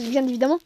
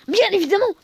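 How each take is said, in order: First: Said in the usual way. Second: "Bien évidemment" said louder and higher; emphatic repeat. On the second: Real, not acted. Repeating his own remark, louder and emphatic. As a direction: push the repeat harder, louder.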